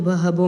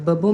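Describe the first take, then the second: First: It is said with an added h sound. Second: It is said without any h sound. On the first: "बहबो में आ गया" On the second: "बबो में नहीं आया"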